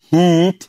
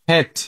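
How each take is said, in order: First: The vowel is a long, full 'ee' sound. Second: The vowel is short, between 'i' and 'e'. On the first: The speaker calls it wrong. "Not হিট" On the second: The speaker calls it right. "উচ্চারণ করতে হবে আমাদের হেড"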